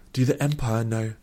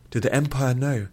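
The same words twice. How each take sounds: First: Sudden brisk question, mildly pressing. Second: Higher, insistent, urgent question. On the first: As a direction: ask it briskly, a touch on edge. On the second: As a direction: press urgently for an answer. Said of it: "even more urgently". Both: A narrator's reading.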